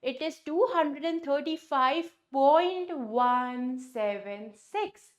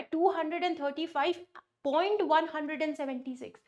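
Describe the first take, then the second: First: After "point" say each digit apart, "one seven six", slowing at the end; teacher modelling "seven six" as separate digits, drawn out; correct decimal reading. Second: "seventy six" read as one whole number after "point", quick and casual; mock a student reading "one hundred and seventy six" after the point as a whole number; wrong decimal reading. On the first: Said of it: "आपको बोलना पड़ेगा". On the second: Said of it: "Is that correct? No, it's not correct". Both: Shown as a demonstration.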